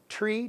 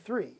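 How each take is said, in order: First: The word begins with a plain t sound. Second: The word begins with a th sound. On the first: "he always said tree" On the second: "say three three three three"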